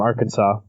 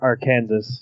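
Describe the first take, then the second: First: The word ends in an 'aw' sound. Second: The word ends in an 's' sound.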